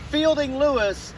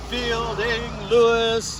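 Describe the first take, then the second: First: Said in the usual way. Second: "Fielding Lewis" drawn out slowly, every syllable weighted like verse; grand rhythmic recital. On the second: Shown as a demonstration. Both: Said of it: "you like that iambic pentameter there".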